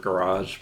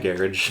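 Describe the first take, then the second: First: It is said with an American pronunciation. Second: It is said with a British pronunciation.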